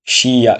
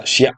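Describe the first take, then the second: First: "শিয়া" drawn out as two beats, shi-ya; syllables apart. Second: "শিয়া" merged into one short beat, shya; blended syllable. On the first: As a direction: stretch "শিয়া" into separate shi and ya. ("শিয়া" ভেঙে টেনে, শি-ইয়া) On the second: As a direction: say "শিয়া" quickly joined as shya. ("শিয়া" জুড়ে ছোট করে, শ্যা) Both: Shown as a demonstration. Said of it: "আসবো যুক্ত বর্ণে".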